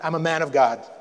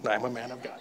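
First: It is said loudly, almost shouted. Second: It is said quietly and hesitantly.

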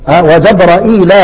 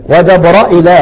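The two takes are said the same way.

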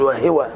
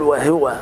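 First: The h is followed by an i vowel. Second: The h is followed by a u vowel. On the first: The speaker calls it wrong. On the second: The speaker calls it right.

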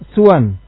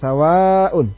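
First: The s is followed by a short u. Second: The s is followed by a long a. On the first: "suwan bi dhammi sin wal qasr" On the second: "sawa dengan fathah sin dan mad"

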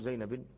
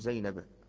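First: The name ends with a nunated -in ending. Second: The name ends with a plain -a ending. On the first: The speaker calls it wrong. "ولا تقول زينب" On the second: The speaker calls it right. "ها تقول زينب"

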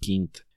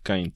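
First: The name is pronounced a non-English way. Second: The name is pronounced the English way. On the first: The speaker calls it right. "es Kind" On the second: The speaker calls it wrong. "no es inglés, por eso no es Kind"

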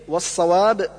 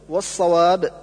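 No difference in how they are said.

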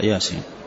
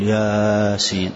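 First: The first vowel is held only briefly. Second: The first vowel is stretched out long. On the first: The speaker calls it right. "لا ياسين" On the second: The speaker calls it wrong. "ما تقول ياسين"

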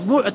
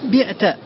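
First: The first vowel is u. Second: The first vowel is i. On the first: The one addressed was the thing sold. The speaker calls it right. "فتضم" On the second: It may be heard as the speaker doing the selling. The speaker calls it wrong. "إذا كسرت سيحصل اللبس"

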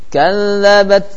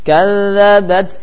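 No difference in how they are said.

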